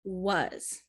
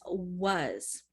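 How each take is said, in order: First: The word starts with a W sound. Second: The same.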